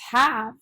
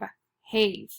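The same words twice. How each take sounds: First: The A vowel is short. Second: The A vowel is long. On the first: The speaker calls it right. "it says a short A" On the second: The speaker calls it wrong. "The E should tell the A to say its name"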